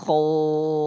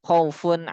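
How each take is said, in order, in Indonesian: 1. Vokalnya panjang dan akhirannya tidak dibaca. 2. Vokalnya pendek dan akhirannya tetap dibaca. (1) "kita mau wakofkan" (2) "Kan dibaca pendek tuh khaufunnya"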